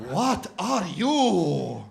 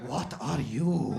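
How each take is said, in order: First: Very slow, loud, swelling question; insistent shopkeeper. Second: Lower, drawn-out probing question; imitated shopkeeper's question. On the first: Retold or imitated. Doner guy presses customer on origins, slow and insistent. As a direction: boom it out, every word hugely stretched. Same question repeated much bigger. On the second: Doner guy quizzes customer on origins, slow and probing. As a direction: stretch it out slowly in the shopkeeper's voice. Shopkeeper asks, then asks bigger.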